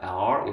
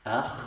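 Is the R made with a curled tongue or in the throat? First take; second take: curled; throaty. First: The R is made with a curled tongue. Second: The R is made in the throat. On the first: The speaker calls it wrong. "입천장과 사이 안에 혀를 이렇게 말아서 뭐 발음한다" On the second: The speaker calls it right. "영어처럼 R하고 이렇게 굴리는 발음이 아닙니다"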